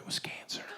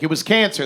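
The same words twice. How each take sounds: First: It is said in a hushed whisper. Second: It is said openly in a normal voice. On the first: The illness is treated as unspeakable. "It's always whispered" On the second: The illness is named openly. "would never openly be like"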